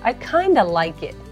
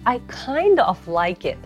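First: "Kind of" is reduced to one word, "kinda". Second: "Kind of" is said as two full words. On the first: "ネイティブっぽい言い方になるのがkind of をkinda って言い方" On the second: "repeat after me"

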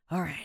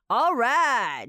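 First: It is said with a weary, breathy sigh. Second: It is exclaimed with excited admiration. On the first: You are telling yourself to be strong. "有种喘气的那种感觉，你就是在跟你说你要坚强啦" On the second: You think someone did something amazing. "你就可以惊呼，就是表示你觉得他很厉害"

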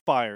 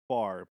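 First: The word is said with the vowel of 'fire'. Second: The word is said with the vowel of 'far'. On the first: The speaker calls it wrong. "it's not fire" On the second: The speaker calls it right. "it's far"

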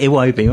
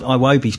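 First: The name starts with a different vowel sound. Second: The name starts with an 'eye' sound. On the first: "but it might be Iwobi" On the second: "You're going with an I"

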